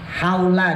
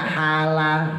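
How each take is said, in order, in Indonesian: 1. Suku kata pertama punya diftong 'au'. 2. Suku kata pertama cuma vokal 'a' biasa.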